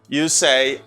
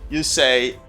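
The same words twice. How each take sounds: Both takes have the same delivery.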